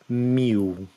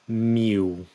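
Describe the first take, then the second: The two takes are said the same way.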